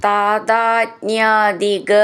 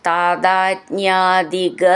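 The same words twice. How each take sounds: Both takes have the same delivery.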